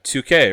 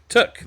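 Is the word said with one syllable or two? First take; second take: two; one. First: It is said as two syllables, 'too-kay'. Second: It is said as one syllable, 'took'. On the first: The speaker calls it wrong. "my pronunciation of two K" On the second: The speaker calls it right. "pronounce took"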